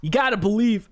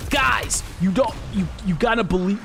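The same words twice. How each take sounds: First: Higher, louder retry of the line; second go at the hype voice; Lex impression. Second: Hyped streamer voice; Lex impression. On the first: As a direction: streamer hype retake. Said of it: "Lex is hard to do". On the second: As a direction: push it up like a meme lord streamer. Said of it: "How do I do Lex?".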